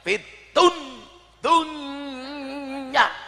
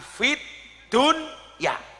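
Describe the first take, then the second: First: The sound before dunya is blurred into a nasal. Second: The d before dunya is pronounced clearly. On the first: The matter is murky and unclear. The speaker calls it wrong. "Bukan berengengeng" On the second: The matter is clear and transparent. The speaker calls it right. "Dibaca idhar"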